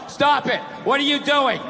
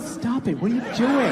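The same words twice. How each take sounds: First: It is read out in a flat, dull tone. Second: It is said in a playful, teasing tone.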